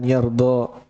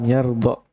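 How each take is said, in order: First: The final vowel is drawn out long. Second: The final vowel is cut short. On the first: The final alif is kept. "Kalau dibaca panjang lan yardo berarti ada alifnya" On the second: The final alif is dropped. "Kalau lam yardo berarti hilang alifnya"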